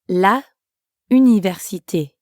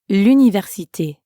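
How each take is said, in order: First: The article is said fully before the noun. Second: The article's vowel drops and joins the noun. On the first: The speaker calls it wrong. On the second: The speaker calls it right.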